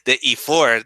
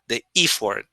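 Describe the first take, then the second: First: The stress is on the last syllable. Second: The stress is on the first syllable. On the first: The speaker calls it wrong. "He's stressing the last syllable" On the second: The speaker calls it right. "the stress is at the beginning, not at the end"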